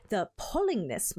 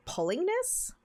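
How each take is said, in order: First: "pullingness" said in a light broken Scottish lilt, falling at the end; a hint of broken Scottish on "pullingness"; broken Scottish accent. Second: "Pullingness?" asked much higher in her own voice, rising in disbelief; plain puzzled "Pullingness?" with a rising end; puzzled question. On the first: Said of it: "like, broken Scottish". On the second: Real, not acted. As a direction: repeat "Pullingness?" as a baffled question. Streamer puzzled by odd word.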